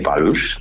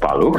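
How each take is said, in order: First: The name ends with an 'sh' sound. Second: The name ends with a rough 'kh' sound. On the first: The speaker calls it wrong. "nie Palusz" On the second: The speaker calls it right. "Piotr Paluch, nie Palusz"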